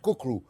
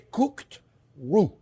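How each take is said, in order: First: The phrase is said quickly and run together. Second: The phrase is said slowly and carefully. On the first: "as fast I said cook roux" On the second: "I'm saying it slowly"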